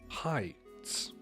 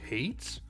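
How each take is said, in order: First: The vowel sounds like the word high. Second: The vowel sounds like the word hay. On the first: The speaker calls it right. "if I were to see H A I, I think that's high" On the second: The speaker calls it wrong. "that's not how you pronounce her last name"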